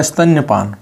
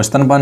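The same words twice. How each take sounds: First: "स्तन्यपान" said as stan-ya-paan, with a clear y after the n; the correct "स्तन्यपान", stan-ya-paan with the ya sounded; "स्तन्यपान" spoken carefully as stan-ya-paan; correct form. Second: "स्तनपान" said as stan-paan, with no y sound after the n; the incorrect "स्तनपान", stan-paan in two clean parts; "स्तनपान" spoken as the mistaken stan-paan; wrong form. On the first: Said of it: "स्तन्यपान होता है". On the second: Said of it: "वो स्तनपान नहीं होता". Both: Shown as a demonstration.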